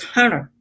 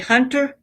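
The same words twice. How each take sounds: First: The middle consonant is a d sound. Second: The middle consonant is a clear t sound. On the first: "it's hunter. H U N D E R" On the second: "we don't say hunter"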